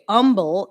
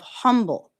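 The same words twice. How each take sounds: First: The word starts without an H sound. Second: The word starts with an H sound. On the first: This is how people from the southeast say it. "southeast that say humble" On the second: This is the usual way elsewhere. "instead of humble"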